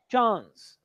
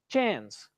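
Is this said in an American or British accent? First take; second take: British; American. First: It is said in a British accent. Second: It is said in an American accent. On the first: "British English" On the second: "American English"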